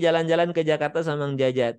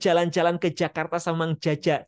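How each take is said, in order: First: The j sounds are plain and natural. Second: The j sounds are forced and exaggerated. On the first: The speaker calls it right. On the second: The speaker calls it wrong. "nggak usah dibuat-buat"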